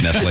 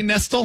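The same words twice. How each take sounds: First: Nestle said as "NESS-lay"; correct Nestle pronunciation. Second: Nestle said as "NESS-ul"; mispronounced Nestle. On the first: Shown as a demonstration. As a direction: end Nestle on a clear "lay" sound. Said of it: "that's pronounced Nestle". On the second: Retold or imitated. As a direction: say Nestle to rhyme with wrestle. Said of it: "you're gonna be surprised to learn".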